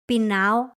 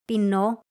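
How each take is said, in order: First: The word ends in a stressed 'a' then 'o'. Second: The word ends in a single stressed 'o'. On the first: This form is casual and common in everyday talk. The speaker calls it right. "In everyday speech, it is more common to say" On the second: This form is rarely used in everyday talk. The speaker calls it wrong. "nobody really says"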